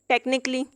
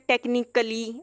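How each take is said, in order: First: No extra vowel is sounded before the ending. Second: An extra vowel is sounded before the ending. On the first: The speaker calls it right. "ए यहाँ पे pronounce नहीं किया जाएगा" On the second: The speaker calls it wrong. "इस तरह से नहीं पढ़ सकते हैं"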